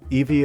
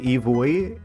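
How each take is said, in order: First: The name is pronounced in the usual English way. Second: The name is pronounced closer to the Japanese way.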